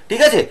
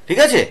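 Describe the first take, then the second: No difference in how they are said.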